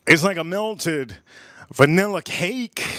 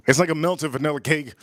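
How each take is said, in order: First: Slow savoring. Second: Said in the usual way. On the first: Shown as a demonstration.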